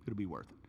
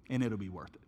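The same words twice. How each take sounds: First: Much softer and lower, sinking in; quiet repeat. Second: Said in the usual way. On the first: Shown as a demonstration. Preacher repeats it'll be worth it to the church, much softer. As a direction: let it'll be worth it fall away to near nothing.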